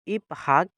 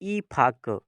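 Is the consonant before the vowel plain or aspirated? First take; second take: plain; aspirated. First: The p and h are said as separate sounds. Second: The p and h merge into an aspirated p. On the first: This is how it is written. "इफ हक है" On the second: This is how it is actually read. "इसको पढ़ेंगे ई फक"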